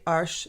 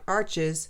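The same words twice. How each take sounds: First: It is pronounced the French way. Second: It is pronounced the English way. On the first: The speaker calls it right. "That's how you say it" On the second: The speaker calls it wrong. "not arches"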